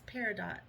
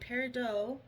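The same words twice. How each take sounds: First: The word is given an English pronunciation. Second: The word is given a French pronunciation. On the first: "or if it's Peridot" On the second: "if it's French and it would be Peridot"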